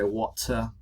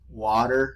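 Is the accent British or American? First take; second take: British; American. First: It is said with a British accent. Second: It is said with an American accent.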